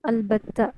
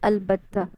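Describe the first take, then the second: No difference in how they are said.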